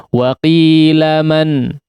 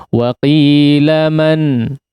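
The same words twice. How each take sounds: The two takes are said the same way.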